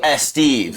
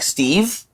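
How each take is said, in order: First: An extra 'e' vowel comes before the 'st'. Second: The word starts directly with the 'st' sound. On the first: "they go S Steve" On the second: "if it's like a name like Steve"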